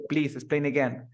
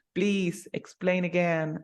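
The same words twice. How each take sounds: First: "Please explain again" said as a flat order; commanding tone. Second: Slow, gentle please explain again; polite request tone. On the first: Teacher models a rude command, curt and bossy. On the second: Teacher models a polite request, slow and gentle. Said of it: "el tono en que lo digas también influye". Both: Shown as a demonstration.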